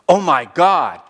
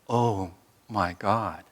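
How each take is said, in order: First: It sounds abrupt, like a startled reaction. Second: It sounds calm, grounded and embracing.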